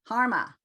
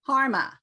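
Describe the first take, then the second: The two takes are said the same way.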